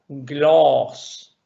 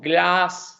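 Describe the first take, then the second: First: The vowel is between a and o. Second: The vowel is an open a sound. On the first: The speaker calls it right. "sino que O, gloss" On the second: The speaker calls it wrong. "no glass"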